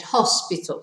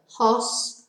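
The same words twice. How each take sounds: First: Said in the usual way. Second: "hospital" split into three separate beats, hos, pi, tal; syllable by syllable. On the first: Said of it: "what was the word that I said?". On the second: Shown as a demonstration. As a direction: break "hospital" into hos... pi... tal, pausing after each syllable. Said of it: "Three syllables".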